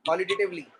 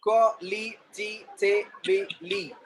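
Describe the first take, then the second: First: Said in the usual way. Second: "Qualitatively" very slowly split into separate syllables. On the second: Shown as a demonstration. Teacher showing the class how "Qualitatively" divides, syllable by syllable. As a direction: say "Qualitatively" in slow, distinct beats. Word in syllables, then whole.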